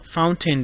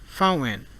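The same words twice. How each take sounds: First: The t is fully released before the n. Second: The t is stopped, followed by a strong n.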